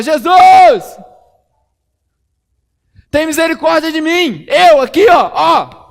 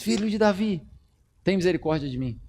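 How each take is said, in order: First: Very high, very loud desperate yell; full shout. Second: Quiet plea. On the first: Blind man yelling louder as the crowd rebukes him. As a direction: scream his name over the crowd. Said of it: "mais alto ele gritava". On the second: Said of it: "chamava Jesus". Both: Acted.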